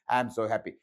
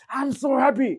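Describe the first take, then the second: First: It is said flatly, without real feeling. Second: It is said with real, warm happiness.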